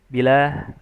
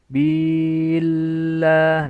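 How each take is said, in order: First: The vowel after the b is cut short. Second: The vowel after the b is stretched longer. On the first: "bila itu ikhtilas namanya" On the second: "itu memanjangkan harokat isba"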